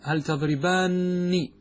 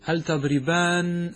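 First: The final nun is said with an i vowel. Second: The final nun is said with an a vowel. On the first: It is clearly addressed to two people. The speaker calls it right. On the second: It could be confused with the singular form. The speaker calls it wrong.

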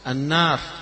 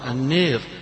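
First: The long vowel is a fully open 'aa'. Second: The long vowel leans strongly toward 'ee'. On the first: "يقرأها مفتوحة" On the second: "يقرأها البعض بالإمالة"

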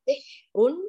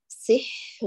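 First: The h sound is cut off abruptly. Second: The h sound flows with continuous breath. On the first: The speaker calls it wrong. "لا نقول سحر بالإتيان بهمس الحاء وقطع الصوت" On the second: The speaker calls it right. "بل نقول سحر يجري الصوت جريان كامل وكذا يجري النفس"

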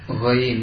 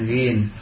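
First: The vowel glides from a to i. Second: The vowel is a plain short i. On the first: The speaker calls it right. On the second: The speaker calls it wrong.

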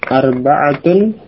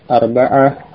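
First: The word ends with a pronounced -atun ending. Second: The word ends in -ah with the ending dropped.

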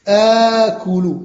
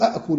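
First: It begins with one glottal stop and long vowel. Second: It begins with two separate glottal stops. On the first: The speaker calls it right. "نجعلها همزة واحدة ممدودة" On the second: The speaker calls it wrong. "لا نقول أأكل"

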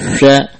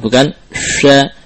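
First: The first consonant is a soft spread-out hush. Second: The first consonant has a sharp whistling hiss. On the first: The speaker calls it right. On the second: The speaker calls it wrong.

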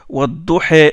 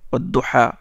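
First: The final vowel leans toward an 'e' sound. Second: The final vowel is an open 'a' sound. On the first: This is the reading with vowel inclination. "ils font ce qu'on appelle l'inclinaison" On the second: This is the reading with the normal pronunciation. "Hafs, il récite Wadduhé"

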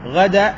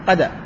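First: The word begins with a throaty gh sound. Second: The word begins with a hard q sound. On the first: "لما يقول غدا" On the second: "بعض الناس ينطق الغين قاف"

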